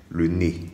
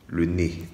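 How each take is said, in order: Both takes have the same delivery.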